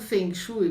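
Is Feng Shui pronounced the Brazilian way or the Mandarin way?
Brazilian. It is pronounced the way Brazilians usually say it. "é a pronúncia que a gente adotou aqui no Brasil"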